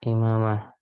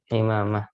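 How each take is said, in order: First: The word starts with a plain glottal stop. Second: The word starts with a throaty ain sound. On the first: This is how it is commonly said locally. The speaker calls it wrong. "Kalau kita di sini imamah" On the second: This is the original pronunciation. The speaker calls it right. "bukan pakai hamzah tapi imamah. Pakai ain"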